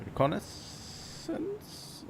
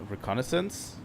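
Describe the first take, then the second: First: "Reconnaissance?" whispered very high and drawn out slowly, rising, with the first R almost gone; "Reconnaissance?" as a slow, high, whispered question; testing the pronunciation. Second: "reconnaissance?" said plainly as ri-KON-uh-sense, rising like a question; a quick, plain check of "reconnaissance?"; plain "reconnaissance?" with a questioning rise; unsure pronunciation. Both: Shown as a demonstration. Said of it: "I think that's how you pronounce it".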